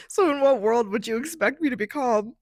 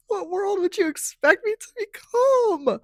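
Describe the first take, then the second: First: Said in the usual way. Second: Much higher and louder on calm; incredulous rising repeat; exasperated emphasis. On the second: Real, not acted. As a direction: push the question up in disbelief.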